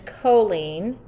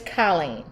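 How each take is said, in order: First: The name is said in a California accent. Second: The name is said in a Michigan accent. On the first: "If you move to California, the name is" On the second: "If you live in Michigan, the name is"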